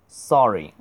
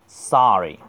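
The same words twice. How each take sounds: First: "sorry" with a British short rounded o; British-style sorry. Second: "sorry" with a wide-mouthed long ah; American-style sorry. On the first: Teacher shows the usual classroom version, British "sorry" with rounded o. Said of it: "学英式或者是中国一般的教学是". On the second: Teacher contrasts with British for students, American "sorry" with long ah. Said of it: "美式的啊会大嘴长音". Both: Shown as a demonstration.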